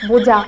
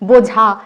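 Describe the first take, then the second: First: The middle consonant is said weakly, halfway. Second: The middle consonant is said with full force.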